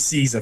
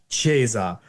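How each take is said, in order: First: It is said with an anglicized English pronunciation. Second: It is said with a church Latin pronunciation. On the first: "which is an anglicization" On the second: "in the church we'd say"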